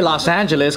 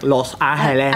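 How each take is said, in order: First: The name is pronounced with English sounds. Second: The name is pronounced with Spanish sounds. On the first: "you can say Los Angeles" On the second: "you're not like Los Angeles"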